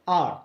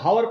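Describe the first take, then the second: First: The word starts with a vowel sound. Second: The word starts with an h sound. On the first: The speaker calls it right. "तो हावर नहीं बल्कि ये क्या है?" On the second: The speaker calls it wrong. "बच्चे कभी कभी mistake करते हैं, गलत पढ़ते हैं, इसको हावर पढ़ते हैं"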